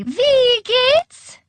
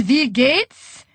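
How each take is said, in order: First: Very high, loud, piercing call; shrill call. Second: Put-on called out higher in a German accent; heavy German accent. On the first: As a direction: sing out a shrill greeting from afar. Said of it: "calling shrilly". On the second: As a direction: greet them in a thick German accent. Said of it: "called in her heavy German accent". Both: A narrator's reading.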